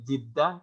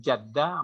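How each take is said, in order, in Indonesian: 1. Suku kata pertama memakai vokal i. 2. Suku kata pertama memakai vokal a. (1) "Kalau Jiddah itu artinya baru, tepi, tepi sungai" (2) "Kalau Jaddah itu nenek"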